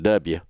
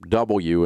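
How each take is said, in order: First: It is said in a Southern American accent. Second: It is said in a standard broadcast accent. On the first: "instead of W" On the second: "and uh, W"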